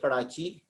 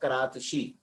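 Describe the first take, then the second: First: The middle consonant is a plain ch sound. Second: The middle consonant is a t followed by sh.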